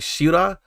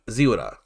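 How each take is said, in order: First: The name begins with an sh sound. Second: The name begins with a z sound. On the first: "Is it a she sound" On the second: "the z"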